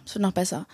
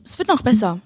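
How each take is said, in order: First: Viel leiser nachgeschoben, fast für sich; leises Echo. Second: Said in the usual way. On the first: Real, not acted. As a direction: sag es noch mal leise zu dir selbst. (leise wiederholt, wie zu sich selbst)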